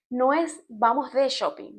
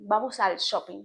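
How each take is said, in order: First: Slow, leaning hard on "de" in "vamos de shopping"; wrong version, stress on "de". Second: "al" lifted with a rising tune; correct version, stress on "al". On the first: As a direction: mark "de" as the mistake, drawn out. (acento en "de", lento, como error) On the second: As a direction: point out "al" as the right word. (acento en "al", con entonación ascendente) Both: Shown as a demonstration.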